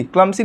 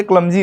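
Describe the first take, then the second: First: क्लमसी with a hissed s sound; wrong s pronunciation. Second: क्लमजी with a buzzing z in the middle; correct z pronunciation. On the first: Teacher showing students the wrong क्लमसी. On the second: Teacher giving students the right क्लमजी. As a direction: say क्लमजी with a clear z. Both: Shown as a demonstration. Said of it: "ज का pronunciation आता है".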